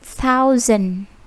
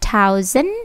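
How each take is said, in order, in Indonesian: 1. Bunyi pertama adalah th yang lembut. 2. Bunyi pertama adalah t yang keras, plosif. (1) "dengan sebutan lebih lembut" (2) "thousand with T plosive"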